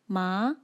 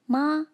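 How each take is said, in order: First: The pitch rises upward. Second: The pitch stays level throughout. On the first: "rises upwards like this" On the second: "maintains its pitch from start to finish"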